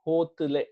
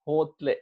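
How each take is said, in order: First: The vowel between t and l is kept. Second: The t and l are joined, vowel dropped.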